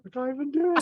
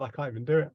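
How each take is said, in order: First: Much higher, breaking into laughter; laughing squeal. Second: Said in the usual way. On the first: Real, not acted. Player cracking up at his own bad singing, laughing squeal.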